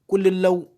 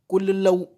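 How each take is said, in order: The two takes are said the same way.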